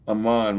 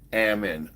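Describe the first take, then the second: First: The name does not rhyme with salmon. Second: The name rhymes with salmon without the s. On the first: The speaker calls it wrong. "my bad" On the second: The speaker calls it right. "my name is pronounced like salmon. You just take the S sound"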